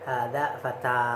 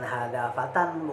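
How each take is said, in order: First: The last word ends in a plain vowel. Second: The last word ends with an n sound. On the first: The speaker calls it right. "tapi hada fata kalau berwakaf situ" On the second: The speaker calls it wrong.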